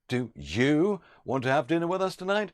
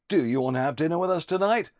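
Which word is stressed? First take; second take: you; do. First: The word "you" is stressed. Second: The word "do" is stressed. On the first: Others were asked; now it is this person's turn. "Or if the emphasis was on you" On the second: The asker is fed up with asking repeatedly. "If you put an emphasis on do"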